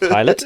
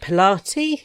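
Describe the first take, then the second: First: The name has its usual spoken form. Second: The name is sounded out letter by letter. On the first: The speaker calls it right. "no, that's Pilate" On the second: The speaker calls it wrong. "I'd never actually heard Pilate and connected it to the way that it's spelt"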